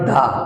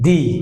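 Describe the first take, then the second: First: The vowel is a short 'uh' sound. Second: The vowel is a long 'ee' sound. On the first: The speaker calls it wrong. "Not দা" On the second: The speaker calls it right. "সুতরাং এটা উচ্চারণ হবে দি"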